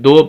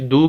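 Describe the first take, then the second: First: The vowel is an 'oh' sound. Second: The vowel is a pure 'oo' sound. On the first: The speaker calls it wrong. "दू की जगह दालपेश दो पढ़े ... मजहूल होगा" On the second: The speaker calls it right. "दालपेश दू"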